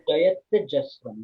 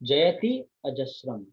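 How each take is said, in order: First: The words are run together as one word. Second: The words are said as two separate words. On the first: The speaker calls it right. "they become Jayatya" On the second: The speaker calls it wrong. "the verse is Jayati Ajasram"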